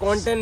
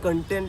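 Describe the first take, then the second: First: The first vowel is a rounded 'o' sound. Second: The first vowel is a short 'uh' sound. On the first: The speaker calls it wrong. "કોન્ટેન્ટ નહીં" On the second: The speaker calls it right. "પણ કન્ટેન્ટ"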